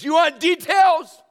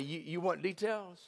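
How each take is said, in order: First: It is said in a harsh, confrontational tone. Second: It is said in a gentle, loving tone. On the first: The listener is being challenged. The speaker calls it wrong. "He wouldn't say it like that" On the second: The listener is being comforted. The speaker calls it right. "He'd lovingly say"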